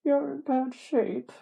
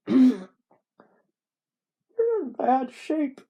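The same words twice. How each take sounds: First: High, slow put-on voice; retried character voice. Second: High, slow, loud put-on voice; wrong character voice. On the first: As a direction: pitch the narrator's line up, drawn out. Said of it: "What was the voice I was doing?". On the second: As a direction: overshoot the character, loud and drawn out. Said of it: "That's not what he sounds like".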